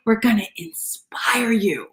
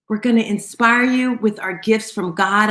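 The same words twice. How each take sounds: First: Slow, hushed whisper after the shout. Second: Said in the usual way. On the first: Shown as a demonstration. Host to listeners, dropping to a slow whisper. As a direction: drop to a slow secret whisper.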